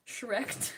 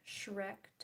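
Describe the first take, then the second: First: Shrek punched out louder, as a sudden decision. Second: Said in the usual way. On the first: Shown as a demonstration. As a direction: call out Shrek as if you just decided. Trying out a party theme.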